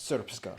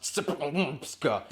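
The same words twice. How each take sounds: First: Srpska said slowly as SURP-ska; correct pronunciation. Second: Srpska as a sputtered pile-up of consonants; mock mispronunciation. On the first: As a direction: say Srpska cleanly, with an r-coloured first vowel. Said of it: "It's pronounced Srpska". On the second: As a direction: stumble through Srpska with no vowel, spluttering the consonants slowly. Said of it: "it looks like it's pronounced". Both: Shown as a demonstration.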